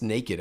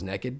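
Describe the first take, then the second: First: Naked is said with a standard pronunciation. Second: Naked is said with a Southern regional pronunciation. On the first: The speaker calls it right. "It's naked. I'm like naked. That sounds weird" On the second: The speaker calls it wrong. "I thought it was naked. I just thought that's how you pronounced it"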